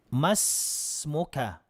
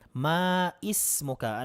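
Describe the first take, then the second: First: The vowel before the s is dropped and linked. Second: The vowel before the s is pronounced separately. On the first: The speaker calls it right. "Ang tama po ay ma masmuka kung lalaki" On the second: The speaker calls it wrong. "nagkakamali po dito, sinasabing maismuka"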